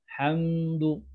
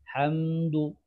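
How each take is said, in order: No difference in how they are said.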